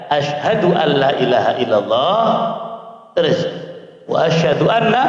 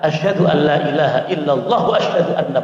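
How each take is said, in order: First: There is a break after 'illallah'. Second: It flows on without a break after 'illallah'. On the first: The two testimonies are not joined, so it is invalid. The speaker calls it wrong. "itu contoh syahadat yang salah dan yang tidak sah" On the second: The two testimonies are joined, so it is valid. The speaker calls it right. "Yang sah adalah ... langsung mualah gandeng"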